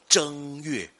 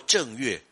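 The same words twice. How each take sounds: First: The first syllable is in the first tone. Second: The first syllable is not in the first tone. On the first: The speaker calls it right. "要念作一声" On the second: The speaker calls it wrong. "你念作正月也是不对的"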